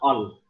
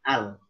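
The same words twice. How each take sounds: First: The opening glottal sound is heavy and dark. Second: The opening glottal sound is light and thin. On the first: The speaker calls it wrong. "jangan al" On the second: The speaker calls it right. "Disempurnakan tipis pada hamzah"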